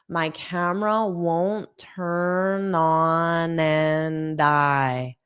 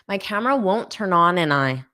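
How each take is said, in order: First: The phrase is spoken at a slow pace. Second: The phrase is spoken at a fast pace. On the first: "let listen to that again slowly" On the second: "Now I'll say just that part quickly"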